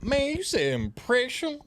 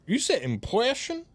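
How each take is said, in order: First: High, slow attempt at a Southern accent. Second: High, slow Southern attempt with muddled R in "impression"; drifting, slow Southern accent, R's gone from "impression"; Southern accent losing R's. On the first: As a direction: drawl "impression" slowly in a high put-on Southern voice. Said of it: "this ain't great Southern accent". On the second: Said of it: "what happened to your R's". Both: Shown as a demonstration.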